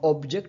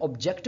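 First: The stress is on the first syllable. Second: The stress is on the second syllable. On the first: "शुरू के जो first syllable था उस पर ज़्यादा स्ट्रेस दी थी" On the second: "हम दूसरे सिलेबल के ऊपर स्ट्रेस दे रहे हैं"

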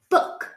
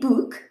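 First: The vowel is a short 'oo' sound as in 'foot'. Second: The vowel is a long 'oo' sound as in 'school'. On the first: The speaker calls it right. "We say book" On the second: The speaker calls it wrong. "We don't say book"

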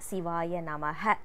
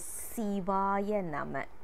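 First: The last word ends with an added 'ha' syllable. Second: The last word ends on a plain 'ma' sound. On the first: The speaker calls it wrong. "we are not supposed to say this as" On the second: The speaker calls it right. "It is Sivaya Nama"

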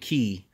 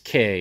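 First: The vowel is 'ee', rhyming with see. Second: The vowel is 'ay', rhyming with day. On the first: The speaker calls it wrong. "A lot of people pronounce it wrong, saying key" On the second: The speaker calls it right. "But it's K"

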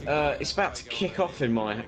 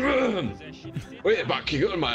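First: It is read in the speaker's own normal voice. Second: It is read in a put-on imitated voice. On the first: "No, I'll read it in his voice" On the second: "I'll read it in his voice"

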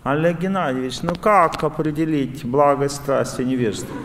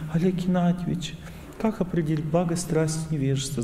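First: The question sounds agitated and impatient. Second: The question sounds calm and gentle. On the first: The asker is driven by passion. "вы в страсти, преобладание страсти" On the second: The asker is in a state of goodness. "вы в благости"

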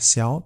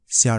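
First: The syllable has a rising tone. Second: The syllable has a low dipping tone.

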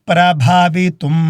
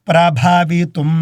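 The two takes are said the same way.

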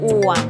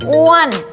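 First: The pitch stays low and level. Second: The pitch rises high then falls. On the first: "อ้วนไม้เอกอ้วน" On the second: "อ้วนไม้โทอ้วน"

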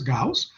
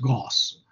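First: The name is said the German way. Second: The name is said the American way. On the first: The speaker calls it right. "is it so challenging to pronounce it as Gauss?" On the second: The speaker calls it wrong. "They stubbornly pronounce it as Gauss"

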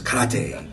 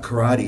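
First: It is pronounced in a Japanese-style way. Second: It is pronounced in an English-style way. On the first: The speaker calls it right. "it's karate" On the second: The speaker calls it wrong. "it's not karate"

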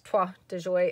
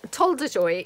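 First: The first word is said without an l sound. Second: The first word is said with an l sound. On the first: "I had a friend who once said it was toi" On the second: "Toldejoy is how I pronounce it. Pretty sure that's not the pronunciation"

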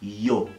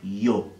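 Both takes have the same delivery.

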